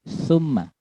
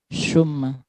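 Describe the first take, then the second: First: It begins with the tongue between the teeth. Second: It begins with a plain s sound. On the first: The speaker calls it right. "ujung lidah itu digigit sedikit" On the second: The speaker calls it wrong. "bukan summa"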